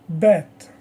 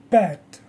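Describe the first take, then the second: First: "Bat" louder, with a voiced B and no puff; less air on B. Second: "Pat" with a puff of air on P; airy P. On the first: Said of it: "Less air". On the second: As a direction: pop the P of "Pat" onto your hand. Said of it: "P has more air". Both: Shown as a demonstration.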